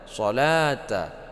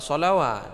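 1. Tidak ada bunyi w yang terdengar sebelum akhiran. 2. Bunyi w terdengar sebelum akhiran. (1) "tapi dibaca solata" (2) "jangan dibaca solawat"

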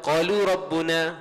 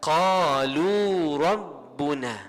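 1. Vokal dalam qalu dibaca pendek. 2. Vokal dalam qalu dibaca panjang. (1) "Kita tak boleh baca qalu rabbuna, tak boleh" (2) "dibaca dengan 2 harakat situ"

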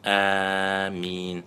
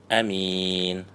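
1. Первый гласный долгий, а m одиночное. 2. Первый гласный короткий, а m одиночное. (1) "протягивая, делая мад آمين и не удваивая мим" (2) "не удлиняя хамзу и не удваивая мим"

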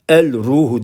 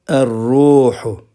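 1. Belirtmenin l'si açıkça okunur. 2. L sessiz kalır, r çift okunur. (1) "El-ruhu diyemezsiniz" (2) "zel ve ra harfi şems harfi"

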